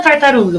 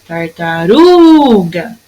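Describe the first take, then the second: First: Said in the usual way. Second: "Tartaruga" with RU drawn out long; calling the word. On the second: Shown as a demonstration. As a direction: call "Tartaruga" slowly, holding the stressed RU. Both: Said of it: "Vamos chamar a palavrinha".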